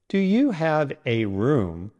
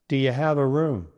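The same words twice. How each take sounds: First: Each word is said separately and distinctly. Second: The words run smoothly together without breaks. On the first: The speaker calls it wrong. "with every word separate" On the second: The speaker calls it right. "it becomes"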